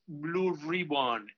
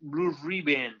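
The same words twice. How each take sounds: First: The second word is said like ribbon. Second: The second word ends in an -and sound. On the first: The speaker calls it wrong. "no es Blue Ribbon" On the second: The speaker calls it right. "es Blue Ribbon, o sea, R-I-B-A-N-D"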